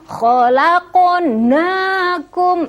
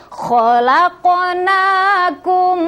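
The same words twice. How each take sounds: Both takes have the same delivery.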